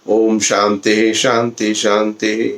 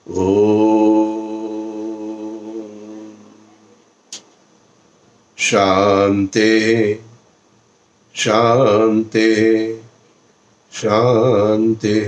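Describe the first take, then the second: First: It is said quickly and hurriedly. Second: It is said slowly and calmly.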